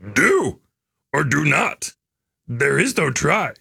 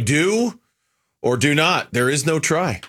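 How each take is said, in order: First: It is said in a Yoda impression voice. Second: It is said in his normal voice.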